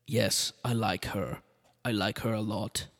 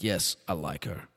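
First: Put-on slow, mild Austrian accent. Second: Put-on lower, slower, heavier Austrian accent; thicker Austrian accent. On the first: Arnold taking a liking to the Kennedy, in a mild Austrian accent. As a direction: Austrian accent, not yet thick. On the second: Arnold repeating his liking for her, in a heavier Austrian accent. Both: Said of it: "The accent got worse".

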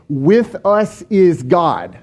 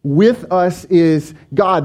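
First: "with us is God" said slowly, each word weighted, stress on with; emphatic slow reading. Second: "With us is God" repeated slowly, stress again on With; repeated slow emphasis. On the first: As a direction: lean on "with" and slow right down. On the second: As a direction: echo it, slow and weighty, hitting "With". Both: Shown as a demonstration. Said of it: "indicates an emphatic".

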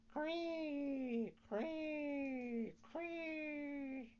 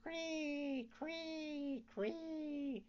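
First: High, thin cricket chirping. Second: High, thin dying cricket chirps; a last faint cricket cry. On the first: Cricket calling to Pinocchio, high chirping cree. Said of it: "someone in the room saying". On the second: Cricket hit by the mallet, high fading chirps. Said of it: "scarcely time to cry". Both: A narrator's reading.

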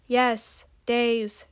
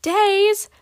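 First: Weary confirmation, falling at the end; understated impatient reply; sighed. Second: Loud, high shout of dismay; high startled outburst; shouted disbelief. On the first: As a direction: confirm it with a mild sigh. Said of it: "Ginger sighed". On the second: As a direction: cry out in shocked disbelief. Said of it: "Magma shouted". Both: A narrator's reading.

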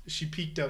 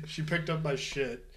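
First: "peeked" said with a long ee, as /pikt/; the mistaken "peeked up" instead of "picked up"; slip of the tongue. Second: "picked" said with a short i, /pɪkt/; corrected word. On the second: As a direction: fix the slip and say "picked" clearly. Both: Real, not acted.

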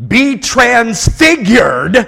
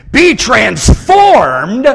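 First: Each word drawn out and pressed, louder; slow emphatic. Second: "Be transformed" slow, louder, rising on "be"; familiar phrasing stressed. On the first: Preacher to congregation, slow emphatic command. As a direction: lay the words down slowly and firmly. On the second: Preacher quoting the usual wording, slow and stressed. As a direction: draw out "Be transformed" with a lift on "be". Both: Shown as a demonstration. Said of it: "we say it like".

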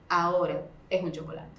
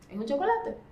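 First: Lowered voice, gently final; calm firm limit. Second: High rising tune on the last word; pitched up, ending on a clear rise; questioning repeat. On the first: Mother holds the limit with child. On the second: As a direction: lift it like a question, climbing on "chocolate". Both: Acted.

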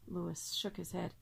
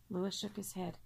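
The two takes are said the same way.

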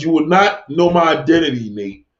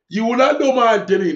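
First: Said in the usual way. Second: Mock quote. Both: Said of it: "So Miss Molly said".

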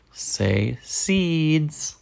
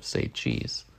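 First: Said in the usual way. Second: Breathy whispered say cheese; whispered aside. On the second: Retold or imitated. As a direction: drop to a whisper for the usual line. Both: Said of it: "instead of".

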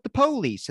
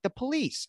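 First: "police" as POH-leece, pitched high; first-time police. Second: "police" as puh-LEECE; high pitch, short first vowel in "police"; second-time police. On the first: Host mimicking his own first try, POH-leece pronunciation. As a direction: hit a long O at the front of "police". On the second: Host mimicking his next try, puh-LEECE pronunciation. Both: Retold or imitated. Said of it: "the next time I said it".

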